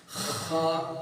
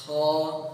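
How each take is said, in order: First: خا with a throaty, phlegmy scrape; wrong kha. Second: خا clean and breathy, no phlegmy scrape; smooth خا with only air friction; correct kha. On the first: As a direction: grate خا from the throat like clearing phlegm. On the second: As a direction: correct خا without rasp. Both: Shown as a demonstration. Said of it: "دو آواز نکالوں گا".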